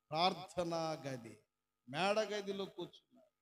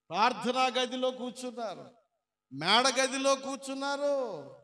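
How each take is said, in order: First: Said in the usual way. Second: Preaching at full force. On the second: Real, not acted. Preacher proclaiming the answer to the congregation, loud. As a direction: drive the answer home.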